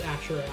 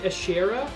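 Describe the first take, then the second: First: The middle vowel sounds like 'oo'. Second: The middle vowel sounds like 'eh'. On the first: This is the version the speaker prefers. The speaker calls it right. "this game does not pronounce it Ashura" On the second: This is the version the game uses. The speaker calls it wrong. "They pronounce it Ashera, which I don't like quite as much"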